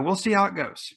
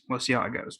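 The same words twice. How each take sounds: First: "we'll see how it goes" lifted high, with "how" on top then falling; sing-song higher read of "we'll see how it goes"; higher playful take. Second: "We'll see how it goes" repeated softer, at normal pitch; quiet aside repeating "We'll see how it goes"; softer echo. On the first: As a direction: toss it off brightly at a higher pitch. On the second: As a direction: mutter it back to yourself softly. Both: Real, not acted. Repeats closing line differently.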